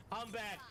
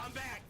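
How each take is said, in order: First: Said in the usual way. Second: Audio cutting out mid-word; broken, dropping-out stream audio; tape dropouts. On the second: Real, not acted. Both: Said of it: "my audio keeps cutting out".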